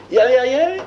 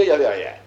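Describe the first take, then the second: First: High, loud, ringing restatement; emphatic. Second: Said in the usual way. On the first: Shown as a demonstration. Teacher hammering home that nothing existed, emphatic. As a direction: lift the whole phrase and let it ring.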